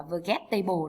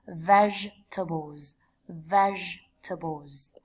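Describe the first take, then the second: First: "vegetable" mispronounced with every written vowel sounded; wrong pronunciation. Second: "Vegetables" said slowly as VEJ-tuh-bulz; correct pronunciation. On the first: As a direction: misread "vegetable" as it is spelt, in four syllables. (đọc sai "vegetable" theo mặt chữ) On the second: (đọc chậm "Vegetables" đúng âm, tách ba âm tiết) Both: Shown as a demonstration. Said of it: "tuyệt đối không đọc là".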